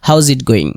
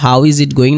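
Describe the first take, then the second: First: The word 'is' is reduced onto 'how'. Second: The word 'is' is said as a separate word. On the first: "short ফর্মে ক্ষেত্রে" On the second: "হাউ ইজ it going না বলে"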